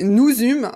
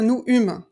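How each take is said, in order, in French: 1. Les deux mots sont liés par un son z. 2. Les deux mots se disent séparément, sans liaison. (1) "on fait la liaison" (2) "Vous pouvez pas dire nous eûmes, ça marche pas"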